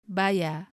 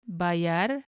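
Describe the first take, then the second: First: The word ends in an A, without R. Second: The word ends with a clear R sound.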